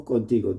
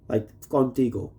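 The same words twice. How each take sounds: First: Contigo in Spanish, kon-TEE-go with pure vowels. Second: Contigo said the English way, KAHN-tee-go with an English o. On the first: Turning the brand name into Spanish, Contigo lightly Spanish. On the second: Reading the flask label, first in plain English. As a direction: read Contigo flatly as an English brand name. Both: Shown as a demonstration.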